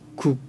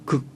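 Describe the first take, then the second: First: The vowel is rounded, like 'oo'. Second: The vowel is unrounded, like 'eu'. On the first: This is the North Korean pronunciation. "북쪽말에서는 국" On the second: This is the South Korean pronunciation. "극적이다 할 때 극 하는데"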